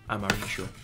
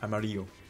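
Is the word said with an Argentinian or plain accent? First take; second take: Argentinian; plain. First: It is said with an Argentinian accent. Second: It is said without an Argentinian accent.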